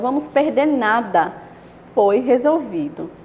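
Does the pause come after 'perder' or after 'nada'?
after nada. There is a pause right after 'nada'. We will lose nothing; it was solved.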